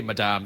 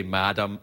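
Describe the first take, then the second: First: "Madame" with the stress on the second syllable; European pronunciation. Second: "Madam" with the stress on the first syllable; common English pronunciation. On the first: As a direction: say "Madame" as muh-DAHM. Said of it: "so I say Madame". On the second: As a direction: say "Madam" as MAD-um. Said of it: "Some people say Madam". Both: Shown as a demonstration.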